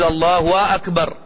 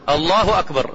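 First: The vowels are stretched out long. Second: The phrase is said short and clipped. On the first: The speaker calls it wrong. "ولا تمد ولا تقول" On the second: The speaker calls it right. "قطع جزم"

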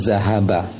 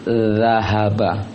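First: The first consonant keeps the tongue behind the teeth. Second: The first consonant puts the tongue tip at the teeth. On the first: The speaker calls it wrong. "jangan zahaba" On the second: The speaker calls it right. "ujung lisan ke ujung gigi atas"

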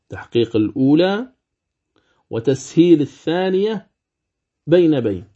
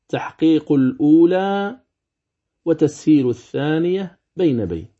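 The two takes are said the same way.

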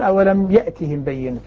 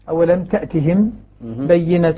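First: The verb starts with a y sound. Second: The verb starts with a t sound. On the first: The verb is in the masculine form. "بالياء" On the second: The verb is in the feminine form. "بالتأنيث"

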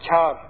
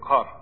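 First: The k is a front, softer sound. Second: The k is a back, deeper sound. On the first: The speaker calls it wrong. "Kefle değil, ... Yani kar tarzına değil" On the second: The speaker calls it right. "kaf harfiyle"

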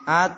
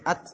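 First: The final t ends without a puff of air. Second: The final t ends with a puff of air. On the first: The speaker calls it wrong. "jangan at" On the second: The speaker calls it right. "Tapi at"

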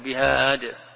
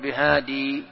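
First: The word ends on the consonant 'd'. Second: The word ends with a long 'ee' vowel. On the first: The written text lacks the final letter. "حين وقفت عليه تقول بهاد" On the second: The written text keeps the final letter. "إذا وقفت تقول بهادي تثبت"

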